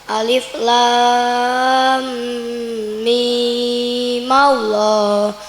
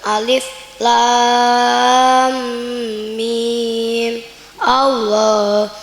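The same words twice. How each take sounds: First: Mim runs straight into Allah. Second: There is a stop after mim. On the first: "Jika wasal dibaca" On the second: "Jika wakaf dibaca"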